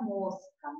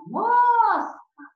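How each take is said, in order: First: Said in the usual way. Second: Mosca with MOS held high and loud; stress on MOS. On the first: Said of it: "a sílaba tônica é a penúltima". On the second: Shown as a demonstration. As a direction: stretch the first syllable of mosca, then drop. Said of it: "então, a sílaba tônica".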